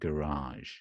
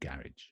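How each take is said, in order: First: The stress is on the second syllable. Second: The stress is on the first syllable. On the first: "So the stress is on the second part" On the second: "I would say garage"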